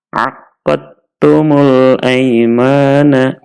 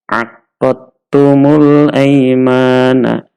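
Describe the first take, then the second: The two takes are said the same way.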